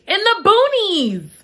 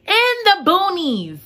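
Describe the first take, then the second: First: High, slow dismay; slow, high mock horror; dramatic emphasis. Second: High, slow repeat in dismay; slow, high mock horror again; dramatic echo. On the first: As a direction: stretch it out in disbelief. Dramatic repeat. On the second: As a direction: echo it, just as shocked. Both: Real, not acted.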